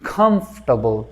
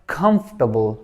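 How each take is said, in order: No difference in how they are said.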